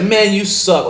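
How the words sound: It is said in a cold, hostile tone. It is a real insult. "your whole tone can change that same comment and make it toxic"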